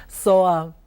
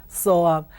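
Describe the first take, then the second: Both takes have the same delivery.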